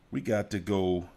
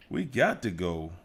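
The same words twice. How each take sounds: The two takes are said the same way.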